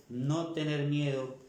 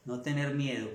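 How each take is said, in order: First: Slow, weighted stress on "no"; firm, slowed-down "no tener miedo"; emphatic repeat. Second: Said in the usual way. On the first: Real, not acted. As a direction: draw out "no" and drive the advice home.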